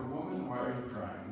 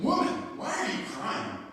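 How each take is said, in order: First: Plain, gentle asking with no edge; understated, tender concern; tender question. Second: Higher, louder accusatory question; acted accusation, pitched up and forceful; accusing. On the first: Acted. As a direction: ask it kindly, without accusing. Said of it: "this is a time of tender love". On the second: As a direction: demand it like a reproach. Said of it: "I viewed this more as an accusation".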